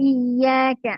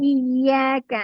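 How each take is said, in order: No difference in how they are said.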